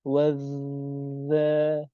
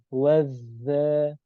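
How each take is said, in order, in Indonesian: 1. Huruf z yang digandakan ditahan sangat lama. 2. Huruf z yang digandakan ditahan selama dua ketukan. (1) "Itu terlalu lama"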